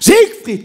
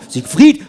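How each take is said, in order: First: The stress is on the first syllable. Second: The stress is on the second syllable. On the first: The speaker calls it wrong. "nicht auf der ersten, nicht sagen" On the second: The speaker calls it right. "Sieg leise, Fried laut"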